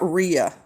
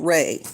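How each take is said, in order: First: The name is said like 'Rhea'. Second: The name is said like 'Ray'. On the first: The speaker calls it wrong. "It's not Rhea" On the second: The speaker calls it right. "It's like John Ray"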